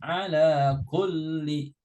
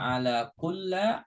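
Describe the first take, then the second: First: The last word ends with an i vowel. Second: The last word ends with an a vowel. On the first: The speaker calls it right. "Harus ala kulli" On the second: The speaker calls it wrong. "Nggak boleh dibaca ala kulla"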